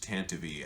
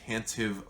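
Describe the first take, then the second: First: The name ends with an extra 'ee' sound. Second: The name ends without an extra 'ee' sound. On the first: The speaker calls it right. "it is actually pronounced Tantivy" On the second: The speaker calls it wrong. "I said Tantive"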